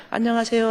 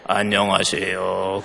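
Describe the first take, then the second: First: 안녕하세요 lifted much higher and cheerful; high bright greeting. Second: 안녕하세요 dropped low and slow, sounding rude; a sullen low 안녕하세요; low flat greeting. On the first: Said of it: "다시 이제 우리". (높고 밝게 올린 안녕하세요) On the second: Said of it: "그러면 정말 재수 없어". (낮고 느리게 내뱉는 불쾌한 안녕하세요) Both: Shown as a demonstration.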